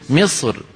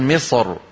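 First: The final r is light and thin. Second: The final r is heavy and thick. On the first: The preceding kasra governs the r. "ومن رققها وقفا" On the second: The neighbouring emphatic letter governs the r. "فمن فخم هذه الراء وقفا"

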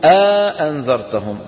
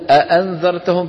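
First: A long a-vowel separates the two glottal stops. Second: The two glottal stops come directly together. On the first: "بيحطوا بينهم ألف" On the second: "بدل ما يقولوا"

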